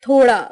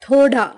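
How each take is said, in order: No difference in how they are said.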